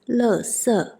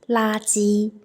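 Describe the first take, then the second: First: It is said with the Taiwan pronunciation. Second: It is said with the mainland China pronunciation. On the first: "In Taiwan" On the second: "In China"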